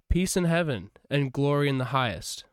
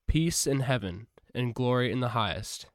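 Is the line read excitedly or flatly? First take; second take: excitedly; flatly. First: It is read loudly with exclamatory energy. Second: It is read in a plain, even voice. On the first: The speaker calls it right. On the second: The speaker calls it wrong.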